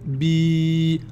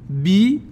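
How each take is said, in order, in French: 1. La voyelle est prolongée. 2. La voyelle est courte.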